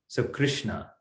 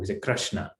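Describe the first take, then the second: First: The r is followed by an 'ri' sound. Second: The r is followed by an 'ra' sound. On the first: This is the Sanskrit pronunciation. "in Sanskrit, the, the pronunciation is r" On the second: This is the Gujarati pronunciation. "in Gujarati, we say ra"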